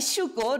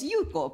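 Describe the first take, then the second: First: The first sound is a hissing sh-like sound. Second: The first sound is a plain y sound. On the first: The speaker calls it wrong. "rehilamiento del tipo cuando alguien me llama Shuko" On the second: The speaker calls it right. "para mí Shuko no es Yuko"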